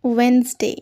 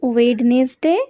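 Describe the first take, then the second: First: The middle d and e are dropped. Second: The middle d and e are pronounced. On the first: The speaker calls it right. "কি বলবে?" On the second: The speaker calls it wrong. "একেবারেই ভুল।"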